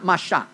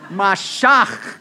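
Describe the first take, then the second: First: The final ch sound is soft and light. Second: The final ch sound is harsh and throaty. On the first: The speaker calls it wrong. "No, not Mashach" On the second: The speaker calls it right. "You have to spit at somebody to say this right"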